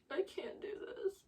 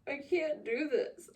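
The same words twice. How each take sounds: First: Higher, voiceless whisper of despair; hushed higher whisper. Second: Said in the usual way. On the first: Real, not acted. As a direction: whisper it like you're at your limit. Distressed repeating while reading.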